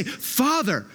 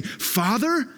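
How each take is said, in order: First: High, confident call to a father; intimate, confident prayer opening; bold, confident address. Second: High, rising disbelief; shocked echo with rising tune; incredulous question. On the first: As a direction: say it as a sure, falling address. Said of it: "boldness and confidence that you could come and say". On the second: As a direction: question the word as if scandalized. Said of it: "the disciples and people just flipped out". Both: Retold or imitated.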